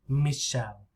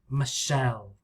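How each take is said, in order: First: The stress is on the first syllable. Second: The stress is on the second syllable. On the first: "French, maybe the stress is here. Me" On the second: "But English"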